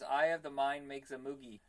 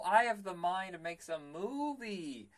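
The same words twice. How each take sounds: First: "moogie" with a hard g in place of movie's v; misheard movie quote. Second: "movie" said properly with a v, drawn out slowly; slow, higher realization landing on "movie"; corrected movie quote. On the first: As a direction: say "moogie", rhyming with boogie. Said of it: "for years I thought it was". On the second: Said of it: "later I was watching it on the Blu-ray". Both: Shown as a demonstration.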